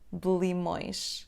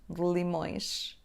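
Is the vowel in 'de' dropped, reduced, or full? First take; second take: dropped; dropped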